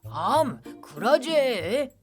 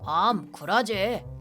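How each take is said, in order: First: The dialect intonation is strongly exaggerated. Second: The dialect intonation is mild and flat.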